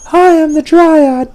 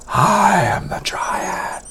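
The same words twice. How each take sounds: First: It is said in a voice that is not undead. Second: It is said in an eerie, undead-sounding voice.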